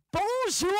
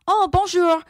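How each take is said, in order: First: High mock-French bonjour, drawn out; mocking echo. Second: High, louder bonjour in careful French; correct French pronunciation. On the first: Classmates mocking correct French, jeering bonjour. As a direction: parrot bonjour in exaggerated ridicule. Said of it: "And people like". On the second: Retold or imitated. Pupil in language class, correct French bonjour. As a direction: bonjour with a proper French accent. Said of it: "if you pronounced words correctly".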